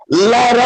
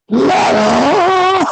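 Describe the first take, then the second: First: Mimicking coworker. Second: High, strained single-word impression of an old coworker; imitating Mister Quan. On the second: Retelling coworker clutching his knee, high mock "Ladder.". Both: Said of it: "he sounded exactly like that".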